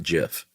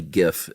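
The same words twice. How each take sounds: First: Second "gif" said with a soft G, like jif. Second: First "gif" said with a hard G, as in gift. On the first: Co-host giving the rejected form, "gif" said jif. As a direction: say "gif" with a J sound. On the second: Co-host joking about a debate, "gif" with hard G. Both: Shown as a demonstration. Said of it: "definitely gif and not gif".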